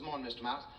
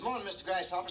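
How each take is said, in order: First: Answering greeting. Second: High, loud, chirpy hello; cheery mouse greeting. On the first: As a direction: return the hello casually. Animal answers the mouse's greeting. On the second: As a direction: call it out brightly as a happy little mouse. Happy mouse greeting everybody in story. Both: Acted.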